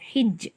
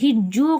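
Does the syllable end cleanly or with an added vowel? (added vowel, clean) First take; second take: clean; added vowel. First: The syllable ends on a bounced j, no vowel. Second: The syllable ends with an added u vowel. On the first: The speaker calls it right. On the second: The speaker calls it wrong.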